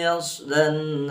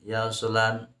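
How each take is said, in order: First: The s flows smoothly with no added vowel. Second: The s is bounced with an added e vowel. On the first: The speaker calls it right. "harusnya kan begitu" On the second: The speaker calls it wrong. "pakai e, jadi seolah qalqalah"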